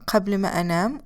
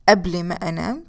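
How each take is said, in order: First: Qabl begins with a deep q sound. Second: Qabl begins with a glottal stop.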